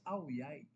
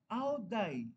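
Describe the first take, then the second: First: The second syllable begins with a y sound. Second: The second syllable begins with a d sound. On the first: The speaker calls it right. "ang pronunciation pala nila sa D I Y" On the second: The speaker calls it wrong. "Yun ang spelling eh"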